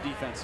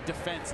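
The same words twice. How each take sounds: First: It is pronounced in a plain American way. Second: It is pronounced in a British-influenced way. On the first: "instead of defense" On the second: "your wife's British, and that's why you say defense"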